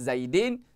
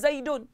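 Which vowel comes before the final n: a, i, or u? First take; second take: i; u. First: The ending has an i vowel before n. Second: The ending has an u vowel before n. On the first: The speaker calls it wrong. "Tak boleh baca dengan Zaidin" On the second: The speaker calls it right. "Zaidun kena baca dengan Zaidun"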